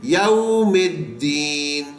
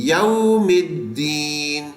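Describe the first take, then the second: No difference in how they are said.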